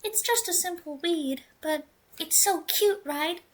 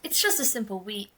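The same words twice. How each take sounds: First: Put-on higher, sweet girl voice; right character voice. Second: Said in the usual way. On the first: Redoing the girl's line in the proper higher voice. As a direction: redo it in the cute girl voice. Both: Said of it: "Oh, wrong voice".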